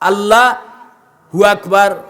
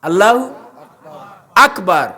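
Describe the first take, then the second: First: Allahu is split into Allah and hu. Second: Allahu is said as one joined word. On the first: The speaker calls it wrong. "পড়ে বেশি ঠিক নাই" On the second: The speaker calls it right. "আল্লাহু এক শব্দ"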